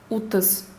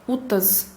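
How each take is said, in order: No difference in how they are said.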